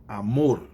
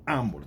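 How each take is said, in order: First: Amor as a-MOR, second syllable strong; correct last-syllable stress. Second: Amor misstressed as A-mor; quick AH-mor, the rejected stress; wrong first-syllable stress. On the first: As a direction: punch and stretch the MOR of amor. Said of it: "tô falando amor". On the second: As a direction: put the weight on the A of amor. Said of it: "não tô falando amor". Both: Shown as a demonstration.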